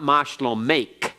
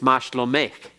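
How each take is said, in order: First: The final consonant is a hard closing K. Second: The final consonant is a softened, breathy K. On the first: The speaker calls it wrong. "It's not mashlomech" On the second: The speaker calls it right. "It's softened a little bit. It's almost like the cheth"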